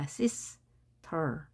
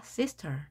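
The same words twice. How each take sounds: First: Sister broken into sis, pause, ter; split syllables. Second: Said in the usual way. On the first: Shown as a demonstration. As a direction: say sister one syllable at a time. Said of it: "따로따로 발음하는 겁니다". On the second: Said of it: "합하니까 sister".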